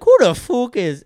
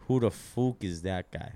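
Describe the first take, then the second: First: Put-on high, loud, slow Irish accent; Conor McGregor. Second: Put-on slow Irish accent at normal pitch; Conor McGregor. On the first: Retrying the fighter's catchphrase high and loud in an Irish accent. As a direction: jump up high into a failed Irish brogue. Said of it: "'Cause he's pretty high pitched". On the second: Trying out a fighter's catchphrase in a slow Irish accent. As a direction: attempt a slow Irish brogue, pitch not raised. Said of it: "Conor McGregor".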